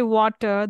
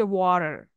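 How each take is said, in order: First: Said in the usual way. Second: "water" with a soft tapped T, like a quick D; "water" said as "wadder"; flapped T. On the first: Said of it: "we say". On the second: Shown as a demonstration. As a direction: soften the T in "water" to a flap. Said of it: "T sound often becomes a soft flap".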